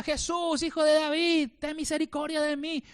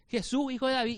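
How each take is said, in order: First: High, pleading cry for mercy; raised, pleading shout; retold cry. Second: Said in the usual way. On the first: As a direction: call out as a blind beggar begging. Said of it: "la Biblia que clamaba". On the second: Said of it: "yo puedo gritarles acá".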